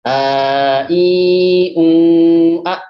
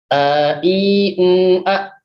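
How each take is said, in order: First: The vowels are held for two beats. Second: The vowels are said short.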